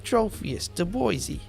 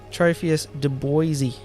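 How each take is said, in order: First: It is said in a put-on Jersey accent. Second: It is said in the speaker's plain accent.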